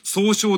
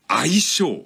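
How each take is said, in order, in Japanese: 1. 最初は 'sou' だよ。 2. 最初は 'ai' だよ。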